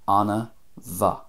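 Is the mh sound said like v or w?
V. It has a v sound after an extra vowel. "very often M H is a V sound"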